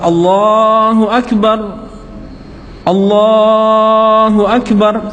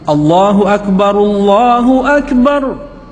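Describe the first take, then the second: First: The two phrases are separated by a pause. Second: The two phrases run together without a pause. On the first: The speaker calls it wrong. "enggak boleh dipisah. Jangan ... salah" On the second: The speaker calls it right. "Jadi harus disambung"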